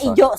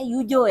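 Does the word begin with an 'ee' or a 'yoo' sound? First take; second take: ee; yoo. First: It begins with an 'ee' sound, Korean-style. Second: It begins with a 'yoo' sound, Chinese-style. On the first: The speaker calls it right. "ijo bacanya ijo" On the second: The speaker calls it wrong. "Gue bacanya ala Cina coy"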